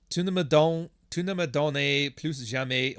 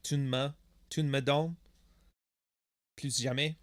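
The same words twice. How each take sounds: First: "Tu ne me donnes plus jamais" slowly, every word spelled out; full French wording. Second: "tu ne me donnes" contracted, the "ne" shrunk to a bare n; Quebec French abbreviation. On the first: Reads French out before showing abbreviated version. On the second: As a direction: run "tu ne me" together, Quebec-style. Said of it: "you abbreviate a lot of stuff". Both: Shown as a demonstration.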